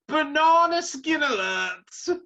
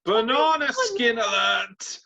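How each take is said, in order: First: Even higher, slow, loud siren-like call; hammed-up alarm at its peak; squealing the warning way up high; mock alarm, higher. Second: Slow, high, loud alarm call; sounding the alarm, hammed up; mock alarm. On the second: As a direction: ring the alarm like a siren. Mock alarm over upset pick.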